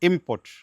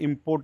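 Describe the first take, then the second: First: The stress is on the first syllable. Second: The stress is on the second syllable. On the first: It means goods brought in from abroad. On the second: It means to bring goods in from abroad.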